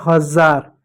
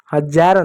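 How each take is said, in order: First: हजार with ज as a buzzing z; correct z pronunciation. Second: हजार with ज as English j; wrong j pronunciation. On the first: Teacher showing how the word is read, with z. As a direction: say हजार as "hazaar". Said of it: "जैसे पढ़ते हैं". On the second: Teacher rejecting the wrong reading, with j. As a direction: say हजार as "hajaar". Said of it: "हजार नहीं होता". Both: Shown as a demonstration.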